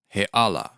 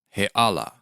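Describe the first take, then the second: First: A glottal stop separates the two words. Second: The same.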